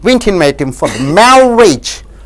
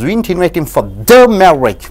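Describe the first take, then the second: First: The word "marriage" is stressed. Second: The word "the" is stressed. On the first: He was invited to something that was not a marriage. "Suppose if we invite on the marriage, seventh one" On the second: He was invited to a different marriage. "when you stress on the"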